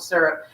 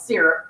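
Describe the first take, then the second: First: It is said with a Californian pronunciation. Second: It is said with an East Coast pronunciation. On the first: This is how the speaker herself says it. "California girl here calls it syrup" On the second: This is how the speaker's family says it. "My East Coast family calls it syrup"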